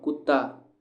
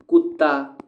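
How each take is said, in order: First: Said in the usual way. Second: कुत्ता said loud, leaning on the doubled त; stressed कुत्ता. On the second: Shown as a demonstration. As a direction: hit the double त in कुत्ता hard. (कुत्ता ज़ोर देकर, दोहरे त पर बल) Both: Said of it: "त, त".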